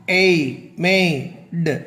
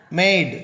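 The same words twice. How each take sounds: First: மேய்டு drawn apart as "ay, may, d"; slow, separate sounds in மேய்டு, gap before the d; phonics sounding-out. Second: Said in the usual way. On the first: Shown as a demonstration. Teacher showing how a final E changes A, sounding out. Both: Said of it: "அந்த உச்சரிப்பின் மூலமாக".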